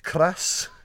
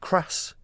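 First: The R sound is strongly rolled. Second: The R sound is plain, not rolled. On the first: The speaker calls it right. "you got to roll your R's" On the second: The speaker calls it wrong. "It's not"

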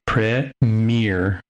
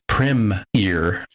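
First: It is said in an American accent. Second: It is said in a British accent. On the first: "The accent for Americans would be premiere. So mere is like the second part of the word" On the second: "British broadcasters... they put it as premier. So the prem is one word and ear is the other one"

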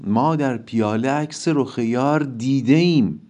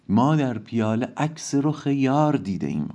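First: The stress falls on the words dide im. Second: The stress falls on the word yar. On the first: It is possible to see it, because it has been seen. "بعضی هم میگن روی دیده ایم میشه بذاریم" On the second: What was seen in the cup is the beloved's face, which explains the constant drinking. "حالا یکم هم یار آکسان بیشتری میگیره"

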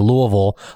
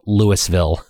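First: It sounds like Lou plus oval run together. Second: It does not sound like Lou plus oval. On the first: The speaker sounds like a local. The speaker calls it right. "if you say it like you're saying the name Lou and the shape oval" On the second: The speaker sounds like an outsider. The speaker calls it wrong. "They actually get really annoyed if you call it Louisville"

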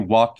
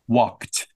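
First: The word ends with a d sound. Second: The word ends with a t sound. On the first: The speaker calls it wrong. "He didn't say walked. That is not correct" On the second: The speaker calls it right. "we don't say the d sound, we make a t sound, like a t"

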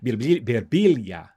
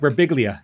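First: The name is pronounced with Italian sounds. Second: The name is pronounced with English sounds. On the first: This is how the name is said in Italian. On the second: This is how the name's owner says it.

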